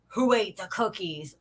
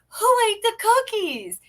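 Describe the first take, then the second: First: It is said in a scolding, displeased tone. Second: It is said in a happy, cheerful tone.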